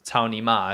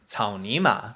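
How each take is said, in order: First: The syllables are said flat, without tones. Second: Each syllable carries its own distinct tone. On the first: "I'll say it without tones" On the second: "grass mud horse"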